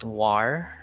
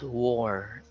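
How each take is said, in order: First: The vowel does not sound like wore. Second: The vowel sounds like the word wore. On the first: The speaker calls it wrong. "it's not war" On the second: The speaker calls it right. "It sounded like W O R E"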